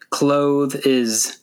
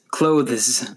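First: The word is said with two syllables. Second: The word is said with one syllable. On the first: The speaker calls it wrong. "Be careful not to say clothe is" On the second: The speaker calls it right. "The word has one syllable"

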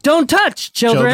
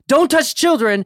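First: There is a pause before 'children'. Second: There is no pause before 'children'.

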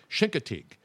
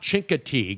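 First: It begins with sh and ends in tig. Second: It begins with ch and ends in teague. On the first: This is how locals say it. The speaker calls it right. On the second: This is how non-locals say it. The speaker calls it wrong. "It's not Chincoteague"

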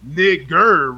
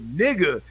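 First: The word ends with a hard R sound. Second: The word ends without an R sound. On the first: This is the form heard as a slur. "they said it with a hard R" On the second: This is the casual form used in speech.

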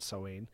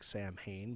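First: It is not read out as 'Sam Hain'. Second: It is read out as 'Sam Hain'. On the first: This is how the word is actually said. The speaker calls it right. "but Samhain" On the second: This is how the spelling looks. The speaker calls it wrong. "like Sam Hain"

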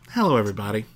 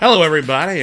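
First: The greeting is warm and calm. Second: The greeting is loud and energetic. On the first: The speaker calls it right. "There you go. You nailed it" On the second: The speaker calls it wrong. "Bring it back a little bit"

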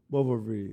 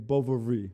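First: The middle consonant is a v sound. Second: The same.

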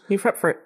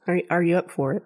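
First: The words are squeezed into a reduced form. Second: Every word is fully pronounced.

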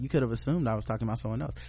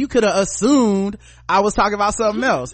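First: Neutral tone without heavy stress on assumed. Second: Sassy tone with heavy stress on assumed. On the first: The writer is simply clarifying without attitude. "he may have said it like that" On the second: The writer is being snide and accusatory. "I read it just like that. ... I took it with a capital assumed and a head roll"

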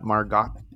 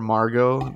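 First: The final t is sounded. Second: The final t is silent. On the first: The speaker calls it wrong. "not Margot" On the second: The speaker calls it right. "this T is not pronounced"

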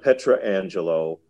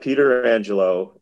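First: The name begins with a separate 'Petra' sound. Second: The name begins with a separate 'Peter' sound. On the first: "It's not Petra Angelo or any other kind of bastardization" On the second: "It's not Peter Angelo"

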